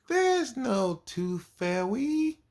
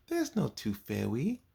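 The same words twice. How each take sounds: First: High, slow, drawn-out mimic of a little girl; mocking the girl. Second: Said in the usual way. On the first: Teacher mimicking the girl who ruins everything, high and slow. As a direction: stretch it out high like a know-it-all kid. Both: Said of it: "that's how she says".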